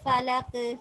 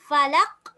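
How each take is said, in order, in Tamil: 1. இறுதி மெய்யெழுத்து வலுவான துள்ளலுடன் வெளிப்படுகிறது. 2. இறுதி மெய்யெழுத்து எந்தத் துள்ளலும் இல்லாமல் மூடியபடி நிற்கிறது. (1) "கடைசிக்கு வந்தால் குபுரா கொஞ்சம் கூட கலக்கி ஓதணும்" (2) "கல்கலா இல்ல வாய் மூடிப்பட்டணும்"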